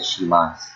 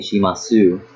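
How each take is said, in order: First: The final u is dropped, ending on s. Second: The final u vowel is clearly pronounced. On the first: The speaker calls it right. "I said shimasu" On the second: The speaker calls it wrong. "I did not say shimasu"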